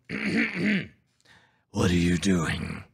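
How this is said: It is said in a put-on Batman voice.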